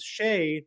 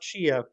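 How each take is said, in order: First: The name is said as one syllable. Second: The name is said as two syllables. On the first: The speaker calls it right. "Our other top tier patron is Shay" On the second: The speaker calls it wrong. "not Shia"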